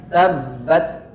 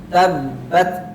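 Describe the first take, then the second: No difference in how they are said.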